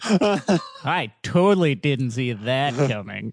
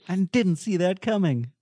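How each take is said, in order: First: It is said in a heavily sarcastic tone. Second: It is said in a plain, sincere-sounding tone.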